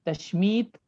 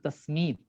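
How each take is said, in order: First: The middle consonant is a 'sh' sound. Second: The middle consonant is an 's' sound. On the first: "शीन के साथ" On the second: "सीन के साथ में"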